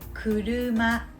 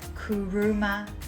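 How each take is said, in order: First: The r is a light Japanese tap. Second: The r is a heavy English-style r. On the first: The speaker calls it right. "this is kuruma" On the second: The speaker calls it wrong. "not kuruma"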